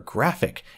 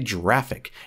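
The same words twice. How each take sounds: First: The word begins with a hard G sound. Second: The word begins with a J sound. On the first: The speaker calls it right. "It's a G for graphic" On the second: The speaker calls it wrong. "you don't say graphic"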